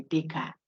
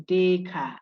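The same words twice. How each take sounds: First: "Descartes" with the final T sounded, anglicised; wrong pronunciation. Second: "Descartes" said day-car, no final T, French style; French pronunciation. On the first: Lecturer showing students the usual slip, T added. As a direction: say "Descartes" ending on a clear T, the common mistake. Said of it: "The last T there we added". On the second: Lecturer teaching students the French name, careful day-car. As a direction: say "Descartes" as day then car, last letters silent. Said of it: "you say it like you wanted to say today, day. Then car". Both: Shown as a demonstration.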